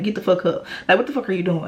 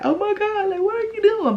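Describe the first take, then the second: First: Said in the usual way. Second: High, squeaky pretend-tearful gush; mock happy crying. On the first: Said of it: "But no, I was like". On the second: Imagined happy girlfriend reacting to a proposal, mock tearful. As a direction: imitate being overcome, pitch way up. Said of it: "I would have been fucking crying like".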